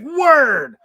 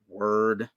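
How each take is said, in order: First: It is said with excitement. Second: It is said with anger.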